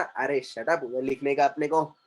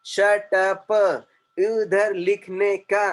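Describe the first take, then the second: First: Said in the usual way. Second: "Shut up" and "उधर लिखने का" in separate, even beats; syllable by syllable. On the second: Shown as a demonstration. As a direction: read "Shut up" like a three-syllable drill word. Reads chat lines as if syllable words. ("Shut up", "उधर लिखने का" अक्षर-अक्षर तोड़कर)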